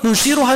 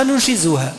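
First: ننشرها with a clear ر, higher. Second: ننشزها with a buzzing ز, lower; with Zay. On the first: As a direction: say ننشرها with a distinct ر. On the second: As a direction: say ننشزها with a distinct ز. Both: Shown as a demonstration. Teacher contrasting the two readings for students. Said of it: "راء وزاي فقط".

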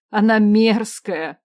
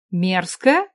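First: Loud, slow cry of disgust on она. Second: Puzzled echo of мерзкая with a rising question; surprised. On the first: Starving woman tells the queen the food is vile, disgusted. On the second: Queen echoes the woman's complaint, surprised rising question. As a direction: repeat мерзкая in disbelief. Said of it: "удивилась я". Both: A narrator's reading.

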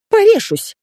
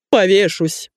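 First: Very high-pitched shriek; squeal. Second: Theatrical cry at ordinary volume; an understated bellow of despair; man's mock yell. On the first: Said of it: "взвизгнула Светка". (пронзительный высокий визг) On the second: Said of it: "заорал он". (сдержанный театральный вопль) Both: A narrator's reading.

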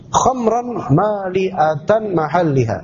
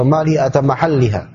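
First: "Khamran mali'atan mahalliha" slowly, syllable by syllable; first trial reading. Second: "mali'atan mahalliha" run together at normal pace; alternative trial reading. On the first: Teacher tries out reading the Arabic commentary, slow and deliberate. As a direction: draw out each syllable of "mali'atan". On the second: Teacher unsure of the reading offers another, more connected. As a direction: read "mali'atan mahalliha" without drawing out syllables. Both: Shown as a demonstration. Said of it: "Atau bagaimana bacanya?".

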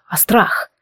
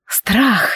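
First: Breathy whispered word, voice almost gone. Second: Sigh. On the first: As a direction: let the word fall to a whisper. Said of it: "едва удерживая голос ровным". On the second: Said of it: "вздохнула она". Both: Acted.

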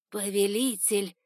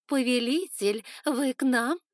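First: Steward bowing, drawn out and nervous; nervous servant's greeting. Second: Higher, louder teasing coo. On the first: Steward Var bowing to his master, nervous and drawn out. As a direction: greet the master with anxious deference. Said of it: "склонился в поклоне, заметно волнуясь". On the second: Concubines cooing at their passing lord, higher and louder. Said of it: "заворковали". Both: A narrator's reading.

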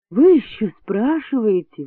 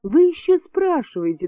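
First: Indignant exclamation, raised; an indignant nurse exclaims; exclaimed. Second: Exclaiming higher. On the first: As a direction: exclaim it, outraged. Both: A narrator's reading. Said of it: "воскликнула Клавдия Петровна".

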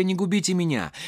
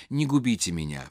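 First: Higher, imploring plea; plaintive pleading. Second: Softer, pitiful repeat; mournful repeat. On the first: Masha begs her father at his feet, higher and imploring. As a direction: beg him to spare you. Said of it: "жалобным голосом". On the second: Masha repeats her plea to her father, softer and pitiful. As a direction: softly repeat the plea, defeated. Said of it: "повторяла бедная Маша". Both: A narrator's reading.

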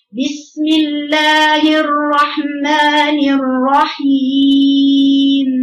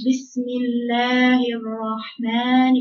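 First: Strong chanted recitation. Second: Slow, weak careless basmala; lazy recitation. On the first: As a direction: sing out the basmala with full strength. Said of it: "قوية". (chanted, بسملة مجوّدة قوية وعالية) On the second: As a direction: read it as if tired and sick. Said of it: "كأن واحد إيه؟". (قراءة كسلانة ضعيفة) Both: Shown as a demonstration.

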